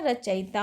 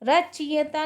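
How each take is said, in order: First: रचयिता said as "racha-yita"; correct pronunciation. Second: रचयिता said as "rachiyta"; wrong pronunciation. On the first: Teacher giving students the right form, रचयिता as "racha-yita". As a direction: keep a before the i in रचयिता. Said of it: "होता है". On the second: Teacher showing students the error, रचयिता as "rachiyta". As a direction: put the i straight after ch in रचयिता. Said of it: "नहीं होता है". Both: Shown as a demonstration.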